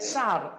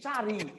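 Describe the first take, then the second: First: The word ends with a consonant sound. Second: The word ends with an added i vowel. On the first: "বলা আছে যে চার" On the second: "এই চার হয়ে গেছে কি? চারি।"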